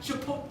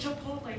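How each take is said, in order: First: The word is pronounced in a mangled way. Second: The word has its native pronunciation. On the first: The speaker calls it wrong. "not Chipotle" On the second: The speaker calls it right. "it's Chipotle"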